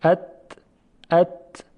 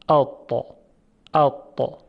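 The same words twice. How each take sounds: First: ات with a thin, forward ت; ات said lightly, tongue back not raised; plain light ت. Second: اتا with a thick, throat-raised ط; اتا said dark and full, back of the tongue raised; heavy emphatic ta. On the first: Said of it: "برای تبدیل این ت به تا". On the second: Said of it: "انتهای زبان رو به طرف بالا بکشید". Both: Shown as a demonstration.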